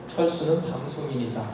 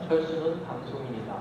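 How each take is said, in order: First: The pitch stays level after the first word. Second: The pitch steps down after the first word. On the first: The topic is already being talked about. "그 다음 스텝이 거의 일어나지가 않아요" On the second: The topic is brought up as new information. "다운스텝이 일어나죠"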